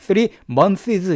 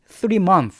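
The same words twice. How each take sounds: First: The final s sound is clearly pronounced. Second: The final s sound is not pronounced. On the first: The speaker calls it wrong. "이렇게 하시면 안 돼" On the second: The speaker calls it right. "s를 발음하지 않습니다"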